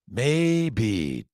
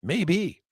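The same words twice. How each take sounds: First: Said in the usual way. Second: "Maybe" said high and wondering; mock considering "Maybe," pitched up; open-minded maybe. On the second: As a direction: float "Maybe" up as a possibility. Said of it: "Rather than going like".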